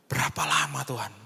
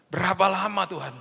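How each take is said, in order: First: Said in the usual way. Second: Higher, stressing berapa; pleading cry to God. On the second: Shown as a demonstration. Pastor crying out to God, raising the pitch on berapa. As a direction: cry out berapa lama in anguish.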